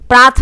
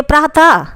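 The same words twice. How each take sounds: First: Said in the usual way. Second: प्रातः finished with an audible "ha"; visarga ending. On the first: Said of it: "प्राथ में विसर्ग लगा दीजिए". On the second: Shown as a demonstration. Teacher showing visarga's sound to students, प्रातः with an "ha" ending. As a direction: let प्रातः end on an h sound and echoed vowel. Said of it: "इसके उच्चारण ह की आवाज़ आती है".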